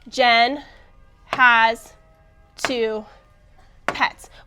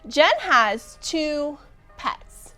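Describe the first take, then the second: First: Each word is read separately with pauses. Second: The words are grouped smoothly into one phrase.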